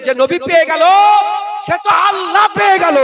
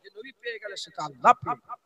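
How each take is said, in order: First: High, loud proclamation; loud preaching. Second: Quiet repeat. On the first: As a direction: shout it to the crowd. First take, loud. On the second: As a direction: drop to a near hush. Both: Acted.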